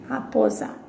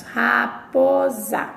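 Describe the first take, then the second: First: Said in the usual way. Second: Raposa stretched very slowly; slow pronunciation demo. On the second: Shown as a demonstration. Teacher to class, modelling how raposa is pronounced. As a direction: draw out raposa syllable by syllable. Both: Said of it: "o que nós pronunciamos".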